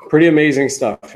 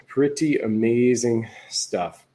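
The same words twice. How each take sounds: First: Loud, punchy exclaim; pretty punched loud and high. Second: Slow, drawn-out repeat; slow it down and savor each word; pretty amazing stuff said slowly. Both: Real, not acted.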